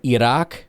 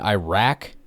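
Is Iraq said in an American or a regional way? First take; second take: regional; American. First: It is said the way people from the region say it. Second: It is said in a plain American way. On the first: The speaker calls it wrong. "people start pronouncing countries all like from the region" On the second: The speaker calls it right. "you mean Iraq?"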